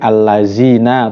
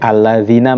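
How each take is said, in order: First: The consonant is a buzzing 'z' sound. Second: The consonant is a soft 'th' sound. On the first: The speaker calls it wrong. "dengan za" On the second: The speaker calls it right. "mengganti zal"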